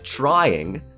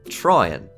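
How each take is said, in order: First: The final g sound is pronounced. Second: The final g sound is dropped.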